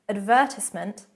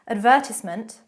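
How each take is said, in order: No difference in how they are said.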